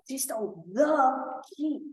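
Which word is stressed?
the. The stress is on the.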